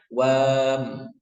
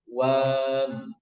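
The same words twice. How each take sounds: Both takes have the same delivery.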